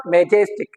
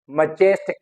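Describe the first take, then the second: First: "majestic" with a full MAY or MEH first syllable; common mispronunciation. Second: "Majestic" as muh-JES-tic; weak first vowel, stressed JES in "Majestic"; correct pronunciation. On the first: Teacher showing learners their usual mistake, mispronounced. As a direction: say "majestic" as MEH-jes-tic. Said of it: "it is not majestic as we pronounce it". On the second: Teacher modelling the word for learners, correctly stressed. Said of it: "so this is majestic". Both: Shown as a demonstration.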